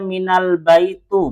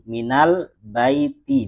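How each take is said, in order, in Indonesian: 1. Kata terakhir berakhir dengan vokal u. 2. Kata terakhir berakhir dengan vokal i. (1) "benar apa salah? Kenapa salah?" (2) "dibaca kasroh"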